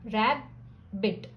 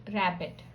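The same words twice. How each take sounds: First: Slowly, with a break between रैबि and ट; rabbit broken into two beats, the b held; split into syllables. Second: Said in the usual way. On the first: Shown as a demonstration. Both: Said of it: "बीच में break लगाएंगे".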